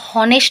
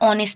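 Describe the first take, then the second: First: The word begins with an h sound. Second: The word begins directly with a vowel. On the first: The speaker calls it wrong. "আমরা হনেস্ট বলি না" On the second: The speaker calls it right. "আমরা অনেস্ট বলি, অর্থাৎ এইচটা এখানে silent থাকে"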